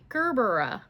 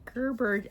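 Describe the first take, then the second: First: The word ends with an extra final vowel syllable. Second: The word ends without a final vowel syllable. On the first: "now that I'm looking all the letters in it" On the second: "I always say Gerber daisy"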